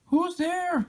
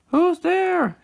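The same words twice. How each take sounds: First: Said in the usual way. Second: High, louder call into the dark; high loud hollered question. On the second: Acted. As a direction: holler it out to whoever's hiding. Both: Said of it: "Tommy hollered".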